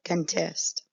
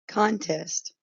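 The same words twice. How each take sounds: First: "contest" stressed on the second syllable, con-TEST, with a weak "con"; "contest" as con-TEST, said slowly; verb stress, slow. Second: "contest" stressed on the first syllable, CON-test, with a full "con"; "contest" as CON-test, first syllable strong; noun stress. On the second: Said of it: "or contest". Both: Shown as a demonstration.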